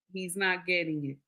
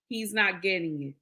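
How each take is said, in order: Both takes have the same delivery.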